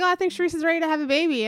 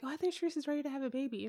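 First: Louder, higher, quick quote; raised-volume retold remark; speaking up. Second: Soft, quick quote; low-volume retold remark; talking too low. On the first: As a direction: repeat it quickly so it can be heard. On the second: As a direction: say it fast and under your voice. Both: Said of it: "am I talking too low?".

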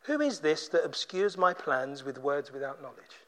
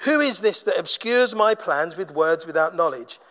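First: Low, hushed challenge from God; God's solemn rebuke. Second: Full-voiced challenge, lightly voiced as God; God's challenge. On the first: Acted. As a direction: lower the voice and drop it very quiet. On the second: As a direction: repeat the rebuke at full volume, pitch lowered. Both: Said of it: "He says".

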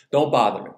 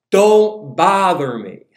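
First: Said in the usual way. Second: Loud, drawn-out higher-pitched holler; yelled refusal. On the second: Acted. Grumpy neighbor to midnight knocker, yelled. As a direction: yell it slowly through the door. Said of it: "yells out".

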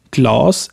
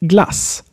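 First: Glass as 'glaas', vowel long and dark. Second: Glass with a short front 'a'. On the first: Teacher contrasting two versions of A, long vowel in glass. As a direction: draw out the back 'ah' in glass. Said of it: "Can you hear the different sounds?". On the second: Teacher contrasting two versions of A, short vowel in glass. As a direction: keep the vowel in glass brief and open. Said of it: "different versions of A". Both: Shown as a demonstration.

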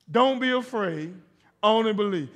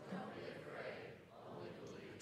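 First: Emphatic call. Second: Whispered softly. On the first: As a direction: lead the congregation loudly. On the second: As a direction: breathe it out under the breath. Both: Shown as a demonstration. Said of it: "Say it like you mean it".

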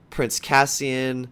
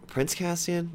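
First: Slow plain naming. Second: Doubtful self-check. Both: Real, not acted. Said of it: "Did I just fucking say that?".

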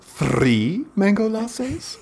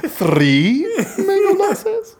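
First: Higher, very slow, drawn-out suggestive question; suggestive theatrical owner. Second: Much higher, very slow, hammed-up question breaking into a laugh; exaggerated suggestive owner. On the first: Retold or imitated. Restaurant owner confirming the drinks order, slow suggestive drawl. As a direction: stretch it out like a showy host teasing an order. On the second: Owner repeating the order to the table, hammed-up suggestive drawl with a laugh. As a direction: overplay the showy host until you laugh. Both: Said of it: "it was always like this suggestive something".

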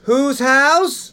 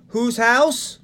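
First: Louder call-out. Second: Slow high call, house rising for the crowd. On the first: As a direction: shout "house" much higher and louder, rising at the end. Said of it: "Let's try it again". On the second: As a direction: call it out slowly so they answer back. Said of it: "Whenever someone asks us whose house". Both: Shown as a demonstration.

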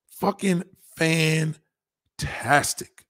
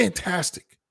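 First: Very slow savoring fucking fantastic; drawn out. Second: Said in the usual way. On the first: Shown as a demonstration. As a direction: stretch every syllable of fucking fantastic.

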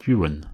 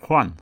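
First: Juan said the Manx way, "JOO-an"; Manx pronunciation. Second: Juan said the Spanish way, "Hwan"; Spanish pronunciation. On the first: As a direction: say Juan with an English J, in two syllables. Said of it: "the Manx form of John is Juan". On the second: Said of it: "it was the Spanish name". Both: Shown as a demonstration.

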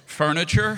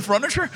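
First: "furniture" said as "FUR-niture"; corrected pronunciation. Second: "furniture" said as "FRUN-iture"; mispronounced furniture. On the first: Shown as a demonstration. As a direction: say "furniture" carefully and loud, starting "fur". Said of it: "She always corrects me". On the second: Real, not acted. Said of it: "Apparently it's not furniture".

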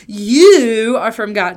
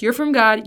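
First: "you" stretched long and loud; heavy emphasis on you. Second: Said in the usual way. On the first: Shown as a demonstration. Preacher recaps how John starts, heavy stress on you. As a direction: lean hard on a slow, loud "you". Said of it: "the emphasis that I think". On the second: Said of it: "That's how he starts".

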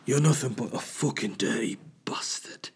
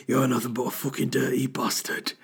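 First: Raspy whispered menace; Game of Thrones voice. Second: Sultry phone-line purr instead of menace; Game of Thrones voice. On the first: Showing off his Game of Thrones voice, whispered and menacing. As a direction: breathe the insult like a grim knight. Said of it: "any excuse to do my Game of Thrones voice". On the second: Repeating his Game of Thrones line, it comes out like a sex line. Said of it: "I actually sound like a woman on a sex line". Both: Shown as a demonstration.

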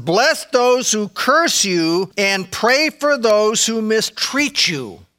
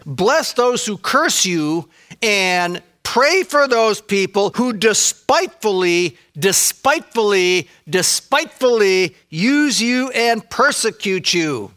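First: Slow, deliberate scripture reading with weight on curse. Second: Slow, solemn King James wording; King James reading. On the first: To the congregation, quoting Jesus slowly and deliberately. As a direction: lay each word down slowly. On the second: Quoting the King James to the congregation, slow and solemn. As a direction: read it out slowly like old scripture. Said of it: "let me quote the King James there". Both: Acted.

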